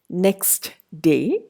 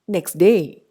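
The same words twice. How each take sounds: First: The t at the end of next is pronounced. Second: The t at the end of next is dropped. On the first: "in written forms" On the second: "would be next day in speech"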